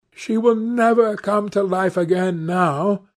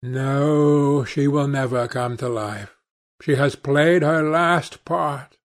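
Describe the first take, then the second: First: Higher-pitched, sustained lament from the lad; muttered despair. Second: Measured agreement. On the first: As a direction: voice the lad's despair, pitched up and held level. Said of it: "muttered the lad, burying his face in his hands". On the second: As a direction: calmly confirm it, settling downward. Older friend answers the despairing lad. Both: A narrator's reading.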